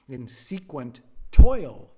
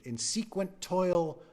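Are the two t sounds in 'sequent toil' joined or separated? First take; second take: separated; joined. First: The two t sounds are said separately. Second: The two t sounds run together into one. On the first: The speaker calls it right. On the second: The speaker calls it wrong.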